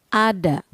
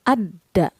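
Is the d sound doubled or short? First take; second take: short; doubled. First: The d sound is short and single. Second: The d sound is held long, doubled. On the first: "Jika tidak ada tasydid dibaca ada" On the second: "Jika diberi tasydid dibaca adda"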